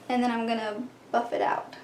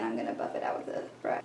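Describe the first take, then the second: First: Said in the usual way. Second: Quick unvoiced whisper to herself; soft fast whisper, as if only to herself; whispered aside. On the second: Real, not acted. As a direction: murmur the step under your breath, fast. Restates the step, then whispers it.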